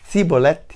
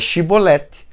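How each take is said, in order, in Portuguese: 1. A palavra começa com som de s. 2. A palavra começa com som de sh. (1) "com S, com Summer" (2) "com Shim"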